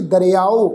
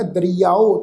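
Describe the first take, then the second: First: ਦਰਿਆਓ said as "da-re-ao", with the ਰ taking an i-sound; ਦਰਿਆਓ read wrongly with the sihari sound on ਰ. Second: ਦਰਿਆਓ said as "da-ri-yao", with the i-sound on ਰ gliding into y; correct reading. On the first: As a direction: demonstrate the mistaken reading "da-re-ao". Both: Shown as a demonstration. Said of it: "ਪਰ ਇਹ ਦਰਿਆਓ ਪਾਠ ਨਹੀਂ ਹੈ".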